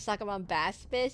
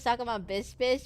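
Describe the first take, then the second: First: The syllable before 'fish' sounds like 'bass'. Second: The syllable before 'fish' sounds like 'bis'. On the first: The speaker calls it right. "but it's actually pronounced the Suckerbomb bass fish" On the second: The speaker calls it wrong. "I call it the Suckerbomb bis fish"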